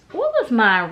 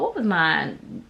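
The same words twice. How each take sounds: First: Higher, louder repeat of the question; asking aloud. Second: Asked half to herself, trying to recall; musing to herself. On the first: Vlogger asks again for her award name, asking aloud. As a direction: throw the question out to the room. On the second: Vlogger trying to recall her award name, musing to herself. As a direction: drift inward, searching memory for the name. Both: Real, not acted.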